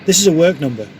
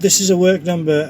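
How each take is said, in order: First: It is said bluntly and firmly, without fillers. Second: It is said hesitantly, with fillers around it. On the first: The matter is closed and not open to discussion. The speaker calls it right. "Just keep it blunt" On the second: The caller is unsure and can be argued with. The speaker calls it wrong. "if you do it wrong, it won't work... um and ahhing"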